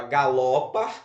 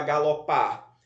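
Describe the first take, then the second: First: Galopa with the middle syllable LO hit hard; stress on LO. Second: Galopar with the final syllable PAR stressed. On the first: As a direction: punch LO in galopa, leaving the last syllable weak. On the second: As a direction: lean on the last syllable of galopar. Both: Shown as a demonstration. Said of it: "Qual é a sílaba mais forte?".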